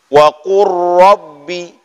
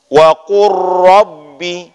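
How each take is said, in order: No difference in how they are said.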